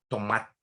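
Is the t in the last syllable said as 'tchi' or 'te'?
te. The final t sounds like 'te', São Paulo style.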